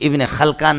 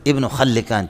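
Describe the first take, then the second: First: The name is said with two syllables, Khal-kan. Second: The name is said with three syllables, Khal-li-kan. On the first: The speaker calls it wrong. "ये इब्न खलकान नहीं है" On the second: The speaker calls it right. "बल्कि क्या है"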